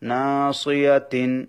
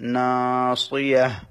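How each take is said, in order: First: The word ends with a full -tin syllable. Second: The word ends with a soft h sound. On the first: The reading continues past this word. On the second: The reading stops at this word.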